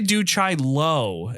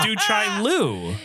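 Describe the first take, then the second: First: The last syllable ends with an 'oh' vowel. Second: The last syllable ends with an 'oo' vowel. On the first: The speaker calls it wrong. "I say Du Chai Lo, and I believe I'm wrong" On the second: The speaker calls it right. "it's definitely spelled Lu. It's Du Chai Lu"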